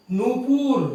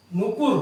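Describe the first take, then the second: First: नूपुर with a long first vowel, noo-pur, pitched up; long uu version. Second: नुपुर with a short first u, nu-pur; short u version. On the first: Teacher showing students the correct long-vowel नूपुर. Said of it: "जो शब्द है वो है नूपुर". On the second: Teacher showing students the short-u नुपुर form. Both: Shown as a demonstration.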